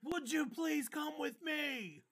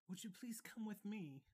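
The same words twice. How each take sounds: First: The line is shouted loudly. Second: The line is read in a normal reading voice.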